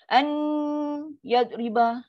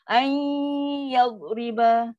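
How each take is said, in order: First: A full n is said, then a separate y. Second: The n is half nasal, blending into y. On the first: The speaker calls it wrong. "itu dah masuk seratus peratus" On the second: The speaker calls it right. "Dengung dan dia ada jalan sekali serentak lima puluh lima puluh"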